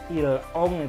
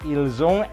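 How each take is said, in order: First: The words are joined without a z sound. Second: The words are joined with a z sound. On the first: The speaker calls it wrong. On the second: The speaker calls it right.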